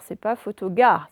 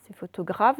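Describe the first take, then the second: First: Dire "photogare" sans le R, exprès; prononciation fautive. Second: "photographe" avec le R bien marqué; prononciation correcte. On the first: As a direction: montrer l'erreur "photogare" en oubliant le R. ("photogare" prononcé sans R) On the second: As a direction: insister sur le "gra" de "photographe". (bien articuler le R de "photographe") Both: Shown as a demonstration.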